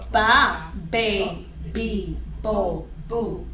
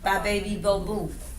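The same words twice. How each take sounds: First: The consonants are hard, full b sounds. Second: The consonants are soft, made with the lips.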